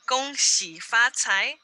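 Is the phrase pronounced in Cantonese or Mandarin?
Mandarin. The phrase is pronounced the Mandarin way. "is how we say it in Mandarin"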